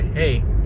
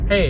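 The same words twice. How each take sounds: First: The greeting sounds hesitant and unconfident. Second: The greeting sounds assured and confident. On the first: The speaker calls it wrong. "the first one I did, it didn't sound that confident" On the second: The speaker calls it right. "you're gonna get more and more confident"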